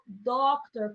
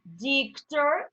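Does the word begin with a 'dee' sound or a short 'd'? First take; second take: short d; dee. First: It begins with a short plain 'd' sound. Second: It begins with the letter name 'dee'. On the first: The speaker calls it right. "eu digo doctor" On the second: The speaker calls it wrong. "Eu não falo dictor"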